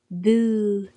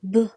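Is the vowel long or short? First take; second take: long; short. First: The vowel after b is long. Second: The vowel after b is short. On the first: "with the letter waw makes a boo sound" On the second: "with dhamma makes a b sound"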